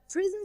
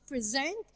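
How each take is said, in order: First: The stress is on the first syllable. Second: The stress is on the second syllable. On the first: It is used as an adjective. "an adjective" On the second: It is used as a verb. "we have a verb here"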